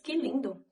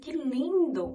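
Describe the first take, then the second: First: The words are said at normal length. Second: The words are stretched out and lengthened. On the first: It is an ordinary remark. "é normal" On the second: It conveys more emotion. "nós estamos alongando e aí passa mais emoção"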